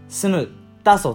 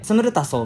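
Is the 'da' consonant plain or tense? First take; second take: tense; plain. First: The 'da' consonant is tense and tight. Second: The 'da' consonant is plain and lax. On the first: The speaker calls it right. "能音化なので" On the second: The speaker calls it wrong. "みたいな感じじゃなくて"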